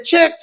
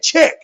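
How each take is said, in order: First: Said in the usual way. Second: "check" cut short, final s of checks missing; toothless short words. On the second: Retold or imitated. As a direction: say "check" for checks, dropping the end. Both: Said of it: "every word he said is short".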